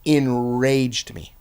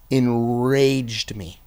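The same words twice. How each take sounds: First: Enraged drawn out slow and heavy again; enraged stretched, falling; stressed enraged. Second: Enraged drawn out slow and heavy; stressed enraged. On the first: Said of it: "And I'm talking". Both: Shown as a demonstration. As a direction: lean hard on enraged, very slow.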